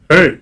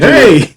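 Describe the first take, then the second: First: It is said softly and warmly. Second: It is said loudly, calling out.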